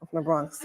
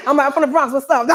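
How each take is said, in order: First: Said in the usual way. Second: Louder, higher, laughing through it; proud Bronx intro with a laugh; louder laughing retake. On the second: Shown as a demonstration. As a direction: say it again bigger, cracking up. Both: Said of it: "Okay, I got it".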